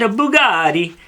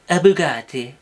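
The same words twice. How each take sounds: First: Bugatti is said with an Italian-sounding accent. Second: Bugatti is said with a French-sounding accent. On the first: The speaker calls it wrong. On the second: The speaker calls it right.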